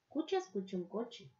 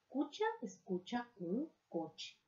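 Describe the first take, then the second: First: It is said a little faster. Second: It is said at a normal pace.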